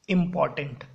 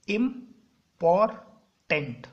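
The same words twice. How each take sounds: First: Said in the usual way. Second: important very slowly, "im - por - tent", loud separate beats; split into syllables. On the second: Shown as a demonstration. Teacher showing where the word breaks, important syllable by syllable. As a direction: break important into three, pausing after each syllable. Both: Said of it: "जहाँ जहाँ पे word टूट रहा है".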